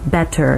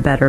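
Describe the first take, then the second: First: The T is pronounced the British way. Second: The T is pronounced the American way. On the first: "the British T" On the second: "the American one"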